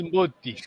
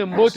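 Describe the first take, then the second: First: Mboti with a final ee sound; regional I ending. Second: Mbote ending in an E sound; standard E ending. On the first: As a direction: turn the E of Mbote into I, Mboti. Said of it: "ils disent Mboti". (Mboti, prononcé avec un I final) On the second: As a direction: say Mbote with final E, not I. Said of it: "Au lieu de Mbote". (Mbote, avec un E final) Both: Shown as a demonstration.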